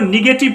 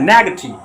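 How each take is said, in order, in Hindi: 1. पहला स्वर 'ih' जैसा बोला जाता है। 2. पहला स्वर 'eh' जैसा बोला जाता है। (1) "इसको सब निगेटिव पढ़ता रहता है" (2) "निगेटिव नहीं पढ़ा जाता है, नेगेटिव"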